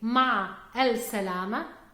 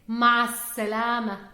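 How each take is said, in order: First: The article 'al' is pronounced before salama. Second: The article is dropped and runs into salama. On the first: The speaker calls it wrong. "instead of saying ma'a al salama" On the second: The speaker calls it right. "we say ma'a salama"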